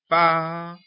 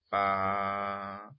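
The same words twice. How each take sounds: First: The syllable is said in a loud voice. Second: The syllable is said in a lowered voice. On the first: "entonando en voz alta la primera sílaba" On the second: "bajando la voz en la segunda sílaba"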